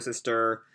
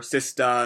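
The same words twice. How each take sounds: First: "sister" said with a full American R; R kept. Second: "sister" said as "sistah" with no R; non-rhotic "sister"; dropped R. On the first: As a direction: finish "sister" with a clear "er". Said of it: "instead of sister". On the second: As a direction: drop the R at the end of "sister". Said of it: "turns all of his R's into Ahs". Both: Shown as a demonstration.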